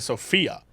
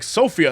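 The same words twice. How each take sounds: First: The stress is on the second syllable. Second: The stress is on the first syllable. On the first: The speaker calls it wrong. "instead of" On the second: The speaker calls it right. "the so is more important"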